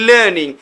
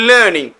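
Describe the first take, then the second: The two takes are said the same way.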